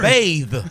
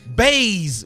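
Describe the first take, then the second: First: The word ends with a 'th' sound. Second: The word ends with a 'z' sound. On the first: The speaker calls it right. "You don't bathe. You bathe" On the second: The speaker calls it wrong. "Baze, B A Z E, is not a word"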